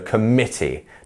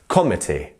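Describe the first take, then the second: First: The stress is on the middle syllable. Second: The stress is not on the middle syllable. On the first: The speaker calls it right. "our mit part of the sen of the word is our stressed part" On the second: The speaker calls it wrong. "not committee"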